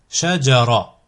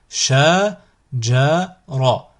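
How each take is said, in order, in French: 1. Le mot est dit d'un trait, sans aucune pause. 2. Le mot est découpé en syllabes séparées, avec des pauses. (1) "ensuite vous le prononcez d'un coup" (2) "Vous découpez le mot"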